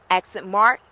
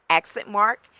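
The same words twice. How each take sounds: No difference in how they are said.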